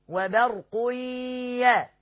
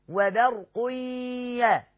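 The two takes are said the same way.

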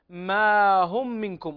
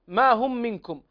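First: The first vowel is held long and clear. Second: The first vowel is short, words run together. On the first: The separate words are clearly heard. The speaker calls it right. "المد الطبيعي تعطيه حقه" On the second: It sounds like one single word. The speaker calls it wrong. "لو لم تعطي المد الطبيعي حقه لتوهم السامع"

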